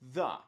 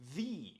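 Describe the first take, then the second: First: It is the form used before consonant sounds. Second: It is the form used before vowel sounds. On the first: "This pronunciation is used before words starting with a consonant sound" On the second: "This pronunciation is used before words starting with a vowel sound"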